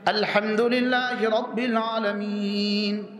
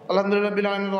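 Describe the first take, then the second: First: It is said slowly, then stops for a breath. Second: It is rushed straight on without any pause. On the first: This is how the Prophet recited. The speaker calls it right. "ওয়া ওয়াকাফা থামতেন, ওয়া নাফাসা নিঃশ্বাস নিতেন" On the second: This is how people commonly recite today. The speaker calls it wrong. "আমরা এক নিঃশ্বাসে সাত আয়াত।"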